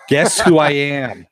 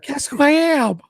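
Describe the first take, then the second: First: It is said in a normal voice. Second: It is said in a high-pitched voice.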